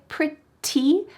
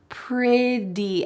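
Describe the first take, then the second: First: The middle consonant is a clear T sound. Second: The middle consonant is a soft D sound. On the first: "She doesn't say pretty, even though there's a T" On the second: "that T will change to a D sound"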